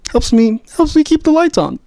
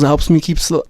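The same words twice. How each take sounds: First: Much higher, squeaky playful pitch. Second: Said in the usual way. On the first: Shown as a demonstration. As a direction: jump up into a squeaky voice. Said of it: "repeated phrase, rising to squeak". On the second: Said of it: "repeated phrase, plain then squeaky".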